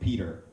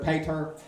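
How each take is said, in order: First: It is said in a plain, normal accent. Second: It is said in a redneck accent.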